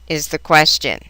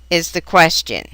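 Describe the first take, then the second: The two takes are said the same way.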